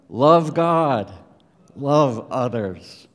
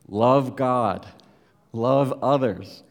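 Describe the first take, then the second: First: It is said with more gusto and feeling. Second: It is said with ordinary, low energy.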